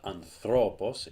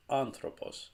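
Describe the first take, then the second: First: "anthropos" stressed wrongly on "thro"; stress on middle syllable. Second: "anthropos" with a high, stressed first syllable. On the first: Teacher showing learners a wrong stress, "anthropos" stressed on "thro". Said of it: "It's not anthropos". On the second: Teacher correcting the wrong versions, "anthropos" stressed on "an". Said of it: "it's anthropos". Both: Shown as a demonstration.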